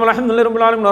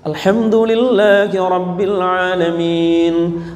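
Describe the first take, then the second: First: It is recited very fast, like a bullet. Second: It is recited at a moderate speed.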